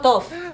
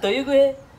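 First: It is said as one short syllable. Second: Every letter is sounded out over several syllables. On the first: The speaker calls it wrong. "It's not tough" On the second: The speaker calls it right. "It's pronounced as Toyuguhe"

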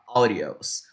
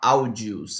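First: The word has English-style pronunciation. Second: The word has Portuguese-style pronunciation. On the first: The speaker calls it right. "em English, a gente fala audios" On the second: The speaker calls it wrong. "a gente não fala audios"

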